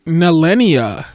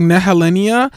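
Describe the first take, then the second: First: Nelenia said with the middle syllable dropped, ne-LEE-nia; Ru's pronunciation. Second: Nehelenia with every syllable voiced, ne-he-LEE-nia; her own pronunciation. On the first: Reviewer quoting how Ru says the name: Nelenia, without the he. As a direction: say Nelenia quickly, skipping the he. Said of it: "Ru says her name like Nelenia". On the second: Reviewer giving her preferred version: Nehelenia, all syllables spoken. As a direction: say Nehelenia fully, keeping the he. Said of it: "And I say it like Nehelenia". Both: Shown as a demonstration.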